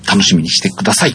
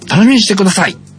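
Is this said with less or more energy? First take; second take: less; more. First: It is said with less energy. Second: It is said with more energy. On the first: The speaker calls it wrong. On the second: The speaker calls it right.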